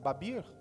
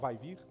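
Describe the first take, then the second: First: It is said with a Spanish accent, v as b. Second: It is said with a Brazilian Portuguese accent.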